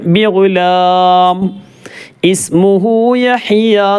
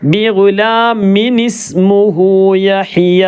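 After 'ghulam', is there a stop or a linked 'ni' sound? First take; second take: stop; linked. First: Ghulam ends with a stop before ismuhu. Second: Ghulam runs straight into ismuhu with a linking 'ni'. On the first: The reciter pauses at that point. "വഖഫ് ചെയ്യുകയാണെങ്കിൽ" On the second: The recitation continues without stopping. "അങ്ങനെയാണ് ഓതേണ്ടത്"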